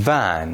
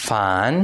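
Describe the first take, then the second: First: "van" begun with buzzing, voiced v; initial voiced v. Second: "Fan" begun with airy, voiceless f; initial voiceless f. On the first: Teacher models for repetition, voiced v opening "van". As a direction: say "van" with a clear v first. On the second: Teacher models for repetition, voiceless f opening "Fan". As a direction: say "Fan" with a clear f first. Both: Shown as a demonstration.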